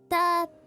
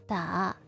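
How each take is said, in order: First: The pitch stays level throughout. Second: The pitch dips low, then rises. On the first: "The first one is flat" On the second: "middle, low, high"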